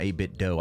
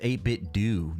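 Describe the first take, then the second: First: The last syllable is said like "doh". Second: The last syllable is said like "doo". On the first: The speaker calls it wrong. "not eight-bit dough" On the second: The speaker calls it right. "It's pronounced eight-bit do"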